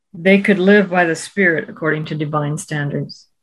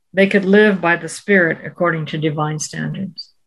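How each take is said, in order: No difference in how they are said.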